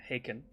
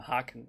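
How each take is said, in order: First: The name is pronounced with English vowel sounds. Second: The name is pronounced with German vowel sounds. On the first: This is how the band's name is actually pronounced. The speaker calls it right. "I know they're Haken" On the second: This is the speaker's habitual native-language pronunciation. The speaker calls it wrong. "I'm German. I pronounce them Haken"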